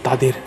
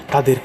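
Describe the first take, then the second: No difference in how they are said.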